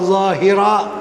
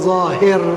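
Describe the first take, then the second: First: The word ends with a final vowel sound. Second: The word ends on a consonant, vowel dropped. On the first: It follows the grammar rules. "kalau ikut nahu dia" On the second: It makes the line rhyme. "Bagi sama dia punya bunyinya"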